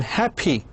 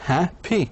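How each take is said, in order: First: Said in the usual way. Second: "happy" as hap, then py, higher; split into two syllables. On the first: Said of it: "من مقطعين، مثل happy". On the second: Shown as a demonstration. Teacher shows learners a two-syllable adjective, broken apart. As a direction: clear pause inside "happy" after the first syllable. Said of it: "من مقطعين".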